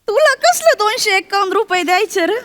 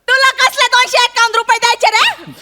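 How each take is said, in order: First: It is spoken in a soft, quiet voice. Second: It is spoken at normal loudness.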